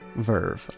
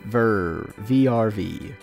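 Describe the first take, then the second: First: The name is said as one single word. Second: The name is spelled out as separate letters. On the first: "I believe, is the pronunciation" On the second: "whichever is more upsetting to the ears"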